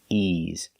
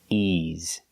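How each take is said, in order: The two takes are said the same way.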